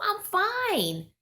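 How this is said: It sounds genuinely content and relaxed.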